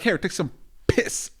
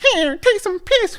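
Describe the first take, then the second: First: It is said in a normal adult voice. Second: It is said in a high baby voice. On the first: The speaker calls it wrong. "That sounded vulgar" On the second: The speaker calls it right. "it's better when you say it in like in a baby voice"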